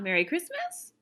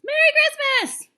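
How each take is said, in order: First: The phrase is said at a calm, normal volume. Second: The phrase is yelled loudly. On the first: The speaker calls it wrong. "It's not" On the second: The speaker calls it right. "Yelling that"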